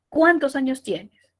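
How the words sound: It starts high and the pitch falls. The speaker calls it right. "Mayor fuerza de voz al inicio, tono descendente"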